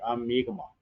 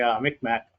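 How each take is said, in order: First: The name is said like 'Mi'kmaq'. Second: The name is said like 'Micmac'. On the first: This is how the people say their own name. The speaker calls it right. "But it's really" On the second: Someone else says the name this way. The speaker calls it wrong. "when somebody say"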